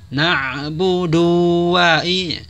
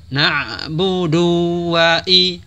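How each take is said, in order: No difference in how they are said.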